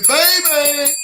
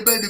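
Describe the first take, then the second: First: Put-on big, high, loud shout of baby; Steve's hype voice. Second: Said in the usual way. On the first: Imitating Steve's voice, hyping up a viewer. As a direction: belt it out like a hype man. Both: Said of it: "you gotta know Steve in that voice".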